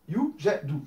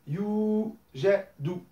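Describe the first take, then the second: First: The first vowel is held for one beat. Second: The first vowel is held for two beats. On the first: "un temps à chaque fois"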